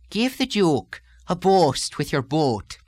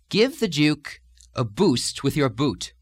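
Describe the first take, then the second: First: It is said with an Irish lilting two-stage oo vowel. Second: It is said with a plain American oo vowel.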